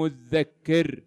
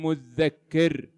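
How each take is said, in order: First: The doubled consonant is a voiced th sound. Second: The doubled consonant is a voiced th sound.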